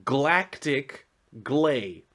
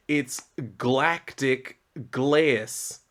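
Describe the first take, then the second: First: "glay" said slowly, rhyming with play, no z at the end; slow misprint reading. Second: "glaze" said slowly as glayz, stressed; slow correction. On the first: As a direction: spell out the typo "Galactic glay", slowly. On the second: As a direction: drag out "galactic glaze", landing hard on "glaze". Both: Shown as a demonstration. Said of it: "No, glay".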